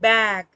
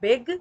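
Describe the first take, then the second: First: The vowel is said with a wide-open mouth. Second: The vowel is said with a narrow mouth. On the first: The speaker calls it right. "मुंह को खोल कर थोड़ा stress लेकर बोलेंगे बैग" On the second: The speaker calls it wrong. "This is not बिग"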